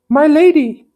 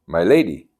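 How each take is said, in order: First: Loud, high-pitched lady voice for the wrong character; high lady voice by mistake. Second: Said in the usual way. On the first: Acted. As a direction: start the line in the lady's voice. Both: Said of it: "No, this is him".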